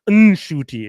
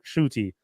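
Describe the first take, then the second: First: The name starts with a clearly sounded N. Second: The name starts with a barely sounded N. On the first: The speaker calls it wrong. "it's just not a hard like" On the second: The speaker calls it right. "Like there's like that kinda soft"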